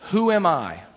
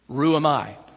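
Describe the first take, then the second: First: The first word begins with an h sound. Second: The first word begins with an r sound.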